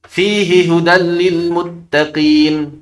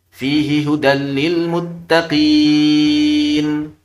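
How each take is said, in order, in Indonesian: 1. Mad dalam muttaqin dibaca dua harakat. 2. Mad dalam muttaqin dibaca empat harakat.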